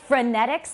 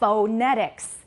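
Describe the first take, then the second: First: The first syllable has a reduced schwa vowel. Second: The first syllable has a full, clear vowel. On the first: "I didn't say phonetics" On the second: "If we can't hear you clearly, you might say"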